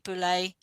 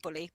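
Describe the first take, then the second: First: The name is said in a posh, fancy way. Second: The name is said in a plain, ordinary way. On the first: The speaker calls it wrong. "I don't say it Boulay. I don't posh it up" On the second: The speaker calls it right. "but it's it's it's [name]"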